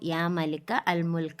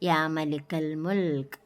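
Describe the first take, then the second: First: The article is said as a separate word. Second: The article is joined onto the previous word. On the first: The speaker calls it wrong. "എന്നല്ല" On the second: The speaker calls it right. "എന്ന് വായിക്കണം"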